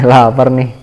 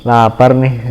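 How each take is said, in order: Both takes have the same delivery.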